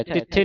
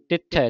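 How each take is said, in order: First: ਤਿੱਥੇ ending in a close "e"; final e. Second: ਤਿੱਥੈ ending in an open "ai"; final open ai. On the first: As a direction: demonstrate mistaken ਤਿੱਥੇ, "tit-the". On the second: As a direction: open the end of ਤਿੱਥੈ to "tit-thai". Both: Shown as a demonstration. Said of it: "ਤਿੱਥੇ ਨਹੀਂ ਪੜ੍ਹਨਾ".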